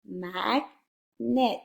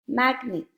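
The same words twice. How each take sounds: First: "Magnet" split slowly into mag, pause, net; syllable by syllable. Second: Said in the usual way. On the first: Shown as a demonstration. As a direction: say "Magnet" as two separate, full syllables. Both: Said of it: "Now blend the whole word".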